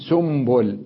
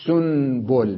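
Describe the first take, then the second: First: سنبل slowly as "sumbul"; nun turned to mim. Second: سنبل slowly as "sun-bul"; original nun. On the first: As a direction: put an m before the b in سنبل. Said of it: "أقلبها ميما". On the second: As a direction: keep a clear, held n in سنبل. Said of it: "سنبل بالنون". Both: Shown as a demonstration.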